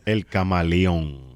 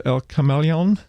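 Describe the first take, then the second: First: "El Camaleon" with open Spanish a's, ka-ma-lee-ON; "El Camaleon" said the Puerto Rican way, slow; Spanish pronunciation. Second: "El Camaleon" with flat American vowels, kuh-MAL-ee-on; gringo-style "El Camaleon", English r and a sounds; american accent spanish. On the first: Shown as a demonstration. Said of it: "El, yeah". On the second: Real, not acted. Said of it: "I'm saying it like a gringo".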